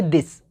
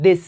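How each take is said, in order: First: "this" said the wrong way, with a hard ending s; wrong pronunciation. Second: Teacher models the right "this"; correct pronunciation. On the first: Teacher shows students the wrong "this". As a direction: show the mistake on "this". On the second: Teacher models the right "this" to students. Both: Shown as a demonstration. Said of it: "ना कि this".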